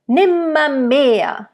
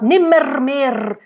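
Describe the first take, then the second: First: Nimmermehr slow, with its r's softened to schwas; soft German r. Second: Nimmermehr with every r sounded hard; overdone r. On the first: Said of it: "It's too much R". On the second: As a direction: nimmermehr with too much r, mer clearly pronounced. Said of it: "It's too much R, especially in that word". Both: Shown as a demonstration.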